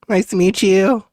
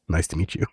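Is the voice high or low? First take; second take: high; low. First: It is said in a high-pitched voice. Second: It is said in a low-pitched voice. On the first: "I kind of end up going up like up here" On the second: "you go down here to Edgar"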